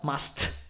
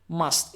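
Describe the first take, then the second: First: The final T is fully released. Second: The final T is stopped and softer. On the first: The speaker calls it wrong. "not must" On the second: The speaker calls it right. "it's softer, I just stopped the T sound"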